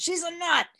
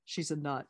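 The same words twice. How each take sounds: First: High-pitched mock outburst; mock exclamation. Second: Said in the usual way. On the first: Speaker mimicking Bill's complaint about Missus Jones, mock exclamation.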